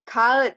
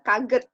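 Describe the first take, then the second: First: No 'g' sound is heard in the middle. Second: A 'g' sound is heard in the middle. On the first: The speaker calls it right. "Yumusak G nggak dibaca" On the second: The speaker calls it wrong. "bukan kaget"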